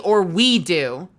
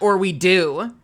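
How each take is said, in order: First: The stress is on the word we. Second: The stress is on the word do.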